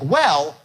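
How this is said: The word goes up high before the drop. The speaker calls it right. "you go up on well"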